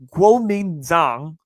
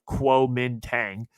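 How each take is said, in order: First: The name is said the native Chinese way. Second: The name is said as its English spelling reads. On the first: This is how the name is really said. "I believe is how you say it" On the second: This is how an American reads the spelling. "it's spelt like Kuomintang, uh, if you want me to be American"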